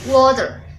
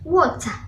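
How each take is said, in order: First: It is said in a General American accent. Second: It is said in a Southern British accent.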